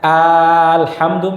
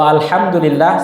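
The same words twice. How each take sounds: First: The opening vowel is drawn out long. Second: The opening vowel is said short. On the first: It asks whether all praise belongs only to God. The speaker calls it wrong. "kalau dia panjangkan alifnya" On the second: All praise belongs to God. The speaker calls it right. "segala puji bagi Allah"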